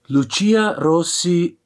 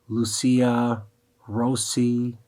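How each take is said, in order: First: The name is said with Italian pronunciation. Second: The name is said with American English pronunciation. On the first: "We should pronounce it like the Italian way" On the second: "for the Americans"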